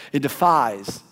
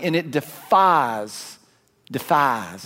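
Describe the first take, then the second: First: Said in the usual way. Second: A drawled Southern "defies", stretched slow; slow Southern-accented "defies"; Southern twang. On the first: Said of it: "is that the right?". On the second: Shown as a demonstration. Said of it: "that sounds really Southern".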